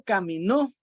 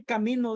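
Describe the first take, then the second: First: "caminó" with a strong final -nó; final-syllable stress. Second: "camino" stressed on the middle syllable, mi; penultimate stress. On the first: Teacher showing students the past tense, final-syllable stress. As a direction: punch the last syllable of "caminó". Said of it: "caminó está en pasado". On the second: Teacher giving students a present-tense example, penultimate stress. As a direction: lean on MI in "camino". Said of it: "camino de está en presente". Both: Shown as a demonstration.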